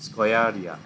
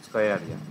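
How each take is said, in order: First: Put-on স্কয়ারিয়া said as skwa-ri-ya, Old Persian style; Old Persian pronunciation. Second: স্কয়ারিয়া repeated with a lower falling close; Old Persian pronunciation. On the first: Teacher giving Xerxes' real Persian name, demonstrated. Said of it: "actual Persian প্রনাউন্সিয়েশনটা হচ্ছে". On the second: Teacher repeating Xerxes' Persian name, lower. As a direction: give স্কয়ারিয়া again, lower and settled. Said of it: "সেটার pronunciation হচ্ছে এই রকম". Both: Shown as a demonstration.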